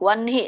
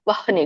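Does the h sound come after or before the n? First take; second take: after; before. First: The n is said before the h. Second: The h is said before the n. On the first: "ನ ಮೊದ್ಲು ಹೇಳ್ಬೇಕು, ಆಮೇಲೆ ಹ ಹೇಳ್ಬೇಕು" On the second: "ವಹ್ನಿ ಗಂಟ್ಲಲ್ಲಿ ಆಗುತ್ತೆ ನೋಡಿ"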